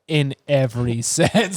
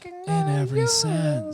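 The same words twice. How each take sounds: First: It is said in a plain reading voice. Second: It is said in a put-on sexy voice.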